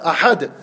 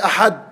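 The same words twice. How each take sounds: First: The final consonant ends with an echoing bounce. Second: The final consonant stops flat without an echo. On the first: The speaker calls it right. "You bounce it" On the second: The speaker calls it wrong. "You don't say"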